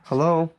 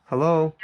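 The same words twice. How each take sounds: The two takes are said the same way.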